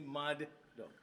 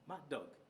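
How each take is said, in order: First: Each d sound is pronounced separately. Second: The two d sounds merge into one. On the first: "Not necessarily say mad dog" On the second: "merging them together into a phrase, you say mad dog"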